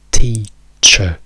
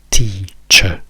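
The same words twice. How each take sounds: No difference in how they are said.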